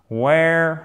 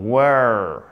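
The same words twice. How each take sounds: First: WERE said like "where"; mistaken vowel. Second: WERE said slowly as "wur"; corrected vowel. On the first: Teacher saying the verb before correcting it, "wair". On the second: Teacher correcting the verb for learners, long "wur". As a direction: draw WERE out on a central "ur". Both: Shown as a demonstration. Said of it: "non, were destroyed".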